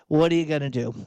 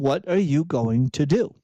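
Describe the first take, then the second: First: It sounds resigned and powerless. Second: It sounds like a pointed, challenging demand.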